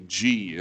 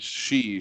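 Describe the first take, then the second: First: It begins with a j sound. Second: It begins with an sh sound. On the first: The speaker calls it wrong. "they'll say G, and I'm like, no, that's not even how you say it" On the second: The speaker calls it right. "I think X is like an S H"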